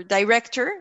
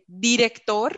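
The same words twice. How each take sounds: First: "director" said the English way, die-REK-ter; "director" with an English r and r at the end; English pronunciation. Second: "director" said the Spanish way, dee-rek-TOH, no final r; "director" with a Spanish tapped r and a dropped end; spanglish. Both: Real, not acted. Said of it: "Sorry for the Spanglish".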